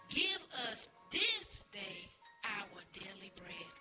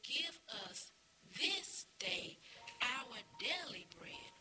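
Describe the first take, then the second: First: It is said more loudly. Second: It is said at normal volume.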